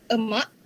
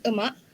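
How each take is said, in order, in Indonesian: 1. Vokal pertama adalah schwa. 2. Vokal pertama adalah schwa.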